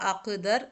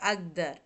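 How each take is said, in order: First: The middle consonant is a hard k-like sound. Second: The middle consonant is a voiced g sound. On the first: This is how the word is written. "എന്നാണ് എഴുതുക" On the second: This is how the word is actually spoken. "പക്ഷെ അഗ്ദർ എന്നാണ് പറയുക"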